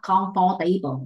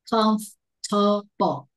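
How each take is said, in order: First: It starts with the full word comfort. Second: It does not start with the word comfort. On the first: The speaker calls it wrong. "This is not comfortable" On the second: The speaker calls it right. "It's not like the comfort"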